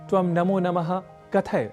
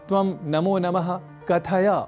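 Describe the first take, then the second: First: The final short vowel is dropped. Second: The final short vowel is pronounced. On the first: The speaker calls it wrong. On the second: The speaker calls it right.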